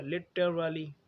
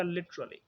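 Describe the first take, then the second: First: Literally slowly as li-tuh-ruh-lee; every syllable of literally kept and stretched; four syllables. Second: Literally shortened to li-chruh-lee; schwa dropped. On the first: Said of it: "चार syllable हो गए". (literally धीरे, पूरा: लि-ट-र-ली) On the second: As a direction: merge t and r in literally into "chr". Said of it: "तो ये बन जाएगा". (literally छोटा करके: लिच-र-ली) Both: Shown as a demonstration.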